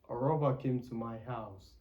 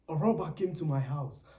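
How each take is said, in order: First: It is said in a flat, plain way. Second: It is said with lively, felt expression. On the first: The words are said without feeling, like an average speaker. The speaker calls it wrong. "as opposed to" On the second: The speaker feels the words being said. The speaker calls it right. "feel the words"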